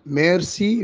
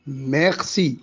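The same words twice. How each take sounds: First: ميرسي with a tongue-tip r; rolled r. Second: ميرسي as "meghsi", r made in the throat; throaty r. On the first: Shown as a demonstration. Teacher giving the standard thanks, ميرسي with rolled r. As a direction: say ميرسي with a clear Arabic ر. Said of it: "بدل ما يقول شكرًا ميرسي". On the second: Retold or imitated. Teacher imitating the French king's lisped r, ميرسي as "meghsi". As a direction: turn the r of ميرسي into غ. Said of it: "ملك فرنسا كان ألدغ".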